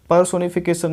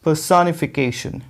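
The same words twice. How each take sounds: First: पर्सोनिफिकेशन as per-so-ni-fi-kay-sun; wrong pronunciation. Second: पर्सोनिफिकेशन slowly as puh-sa-ni-fi-KAY-shun; correct pronunciation. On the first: Teacher rejects the usual error, पर्सोनिफिकेशन as per-so-ni-fi-kay-sun. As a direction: say "so" and end पर्सोनिफिकेशन with a plain s. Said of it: "ये पर्सोनिफिकेशन नहीं होता है". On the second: Teacher models it for students, slow पर्सोनिफिकेशन as puh-sa-ni-fi-KAY-shun. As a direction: open "sa", stressed KAY, sh ending in पर्सोनिफिकेशन. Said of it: "कैसे pronounce करेंगे आप". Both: Shown as a demonstration.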